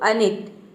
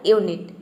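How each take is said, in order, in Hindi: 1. शब्द एक छोटे 'uh' स्वर से शुरू होता है। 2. शब्द 'yoo' ध्वनि से शुरू होता है। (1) "यू को अ प्रोनाउंस किया तो अनिट" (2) "यू को यू प्रोनाउंस किया तो आपने बोला यूनिट"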